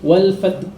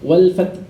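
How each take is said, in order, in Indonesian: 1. Bunyi h di akhir dihilangkan. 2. Bunyi h di akhir dihilangkan.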